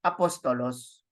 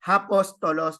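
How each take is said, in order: First: Apostolos opened on the vowel, no H; smooth start. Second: Apostolos with an added H at the start; wrong with h. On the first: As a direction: say apostolos straight on the A. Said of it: "So this is sound as apostolos". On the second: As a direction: breathe an H before apostolos. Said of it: "it is not sounded as". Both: Shown as a demonstration.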